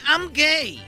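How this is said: It is said in an American accent.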